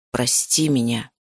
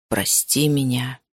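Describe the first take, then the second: First: Lower, slow, gentle male voice; man's apology. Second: Low, slow male plea; repeated apology. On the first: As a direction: say it low and slow, remorseful. Male character apologises to heroine. (низкий медленный мужской голос, с раскаянием) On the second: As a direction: lower and slower, begging forgiveness. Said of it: "Он снова повторил эти слова". (низко и медленно, он снова просит прощения) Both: Acted.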